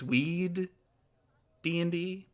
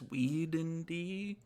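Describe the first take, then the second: First: The name is said with two D sounds. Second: The name is said with one D sound. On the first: The speaker calls it right. "apparently it's Weed D and D" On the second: The speaker calls it wrong. "I've been saying it wrong the entire time"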